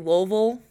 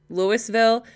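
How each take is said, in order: First: The name is said quickly with most sounds dropped. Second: The name is said in full, syllable by syllable.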